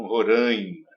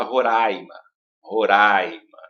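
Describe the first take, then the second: First: "Roraima" with a nasal "rãi"; nasal pronunciation. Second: "Roraima" with an open "ra-i"; Globo's pronunciation. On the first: Shown as a demonstration. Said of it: "E não". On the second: Retold or imitated. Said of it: "a Globo fala".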